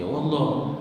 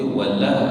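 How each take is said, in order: First: "wallah" with a heavy, dark l as in Allah; wrong heavy-lam "wallah"; thickened lam. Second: "wala" with a light, clear l; thin lam. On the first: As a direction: darken the l in wallah. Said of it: "bukannya wallah". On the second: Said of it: "Dia wala, bukannya wallah". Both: Shown as a demonstration.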